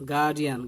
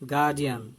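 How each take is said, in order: No difference in how they are said.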